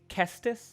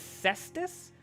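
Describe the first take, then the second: First: The word begins with a hard K sound. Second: The word begins with a soft S sound. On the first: "the hard consonant of the C fits better for punching" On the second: "Is it the Cestus or the Kestis?"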